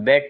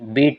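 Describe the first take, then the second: First: The word has a short 'e' vowel. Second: The word has a long 'ee' vowel. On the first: The action happened in the past. "Spelling అదే ఉంటుంది, బెట్ అని చదవాలి" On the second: The action is in the present. "First verb బీట్ అంటాము"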